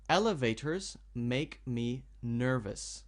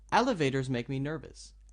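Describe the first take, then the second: First: The sentence is read slowly, word by word. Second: The sentence is read smoothly with the words joined. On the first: The speaker calls it wrong. "So I'll read it slowly now" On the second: The speaker calls it right. "To read it naturally would be"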